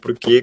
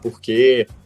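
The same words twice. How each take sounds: First: The R has the São Paulo city sound. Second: The R has the Rio de Janeiro sound. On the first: "com R paulistano" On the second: "com R carioca"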